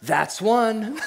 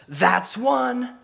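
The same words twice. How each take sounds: First: Calm but pointed "That's one"; a deadpan warning to her husband; laughing through the cowgirl's punchline; dry deadpan. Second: Higher, louder call out the window; hammed-up cowgirl yelling at the dog; mock shout. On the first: Retold or imitated. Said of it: "sits up and looks at him and says". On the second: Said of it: "opens the window and shouts".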